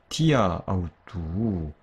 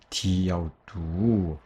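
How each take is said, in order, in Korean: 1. 두 모음을 따로 발음해요. a, 그다음 au. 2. 마지막 a는 빠지고 au와 이어져요. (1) "헬라인들은 디아아우뚜 같은 경우를요. 디아우뚜로 발음하고" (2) "전치사의 끝 모음이 탈락하게 돼요"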